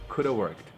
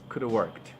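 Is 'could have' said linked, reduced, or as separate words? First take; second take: reduced; reduced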